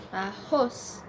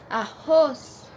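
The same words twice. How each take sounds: First: Said in the usual way. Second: Arroz with the second syllable ROZ punched and louder; stress on ROZ. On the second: Shown as a demonstration. (arroz com ROZ forte) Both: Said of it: "o ros é a sílaba mais forte".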